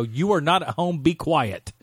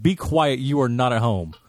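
First: Firm scolding. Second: Firm scolding louder. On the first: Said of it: "I did it that politely". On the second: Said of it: "got up in her face and I go". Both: Retold or imitated.

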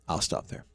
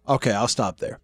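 First: Unvoiced whisper of "I'll stop there"; whispered "I'll stop there" aside. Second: Said in the usual way. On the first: Shown as a demonstration. Repeats the line under his breath.

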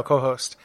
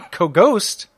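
First: Fix the slip and say "co-host" properly; corrected word. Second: "co-ghost" with a G sound in place of the H of "co-host", said with a laugh; slip of the tongue. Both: Real, not acted. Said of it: "co-, oh no, co-host".

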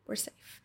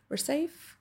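First: Breathless whisper of comfort; whispered reassurance. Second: Soft, higher, rising "safe" to comfort; soft lifted reassurance. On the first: Soothing your own frightened body, whispered. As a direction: whisper it to calm yourself. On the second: Reassuring your body it is safe, soft and rising. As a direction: lift the word "safe" gently upward. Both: Retold or imitated. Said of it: "and we trust".

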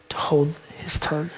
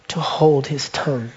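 First: Whisper. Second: Said in the usual way. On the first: Acted. Preacher repeats the poem's last line to the church in a whisper. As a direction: drop to a whisper on the last words.

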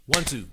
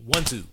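No difference in how they are said.

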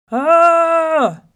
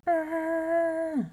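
First: High, very loud sustained yell; hollered roar. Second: High, sustained distant holler; echoed yell. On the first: Enraged lion hollers into the well, roaring yell. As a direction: bellow with everything down a well. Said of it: "looked into the well again and hollered". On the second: Well sends back the lion's yell, echoing. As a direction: echo of a yell, held long. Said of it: "voice that came back from the well". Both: A narrator's reading.

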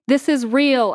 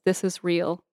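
First: Raised, higher narrated shout. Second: Said in the usual way. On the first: A narrator's reading. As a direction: shout it out as a declaration. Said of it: "I shout". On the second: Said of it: "I am saying this out loud".

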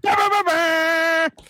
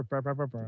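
First: Slow, high shouted bah bah bah bah; loud noise. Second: Much softer, lower, somber bah bah bah bah. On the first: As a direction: belt out Bah, bah, bah, bah like a goofy horn. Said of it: "you're gonna make the noise". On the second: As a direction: sing Bah, bah, bah, bah low and mournful. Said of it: "I'll do a somber". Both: Acted.

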